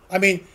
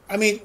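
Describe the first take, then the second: No difference in how they are said.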